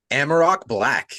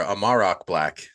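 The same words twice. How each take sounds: First: "Amarok" stressed at the start, AM-uh-rok; first pronunciation. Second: "Amarok" stressed in the middle, uh-MAR-ok; weak first syllable in "Amarok", then a long MAR; alternative pronunciation. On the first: Host reading a commenter's name, "Amarok" as AM-uh-rok. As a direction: open "Amarok" with a short flat a, as in "am". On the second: Host second-guessing a commenter's name, "Amarok" as uh-MAR-ok. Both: Shown as a demonstration.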